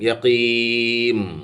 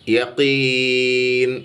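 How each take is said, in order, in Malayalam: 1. ഈ വാക്ക് m ശബ്ദത്തിലാണ് അവസാനിക്കുന്നത്. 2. ഈ വാക്ക് n ശബ്ദത്തിലാണ് അവസാനിക്കുന്നത്. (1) "അല്ലെങ്കിൽ യഖീം എന്നാകും" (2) "ഈ ഇൻ എന്നുള്ള അക്ഷരത്തിനെ പറഞ്ഞിട്ടേ ചുണ്ട് കൂട്ടാവൂ"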